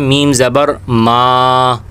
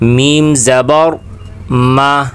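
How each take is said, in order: First: The final 'ma' vowel is drawn out long. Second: The final 'ma' vowel is kept short. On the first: The speaker calls it wrong. "तालिब इल्म क्या करते हैं, वो यूँ पढ़ते हैं" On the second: The speaker calls it right. "मीम को खींचकर नहीं पढ़ेंगे"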